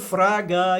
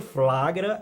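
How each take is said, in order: First: The word is said with an R sound, no L. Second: The word is said with an L sound after F. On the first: The speaker calls it wrong. "onde tem o L, e você vai e coloca um R" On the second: The speaker calls it right. "o certo é"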